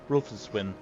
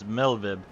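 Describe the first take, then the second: First: The R is sounded and W is a W. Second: The R is silent and W sounds like V. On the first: The speaker calls it wrong. "that's most likely not how it's pronounced" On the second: The speaker calls it right. "the R is silent, and the W is pronounced as a V"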